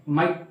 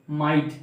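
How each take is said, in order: First: "माइट" with the vowel cut short; clipped short vowel. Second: "माइट" with a full, lengthened vowel; long vowel. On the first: Teacher showing what isn't said, "माइट" cut short. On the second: Teacher modelling long I, "माइट" with vowel drawn out. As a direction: hold the glide in "माइट". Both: Shown as a demonstration. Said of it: "माइट नहीं बोलते हैं ना".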